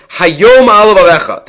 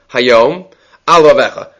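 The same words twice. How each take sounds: First: Hayom alav alecha run together in one breath; no pause after hayom. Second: Hayom set apart, then a clear pause before alav alecha; a deliberate break between Hayom and alav alecha; pause after hayom. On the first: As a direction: say hayom alav alecha without any break. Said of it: "they didn't break between the word hayom alav alecha". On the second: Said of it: "We're supposed to pause after the words hayom". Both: Shown as a demonstration.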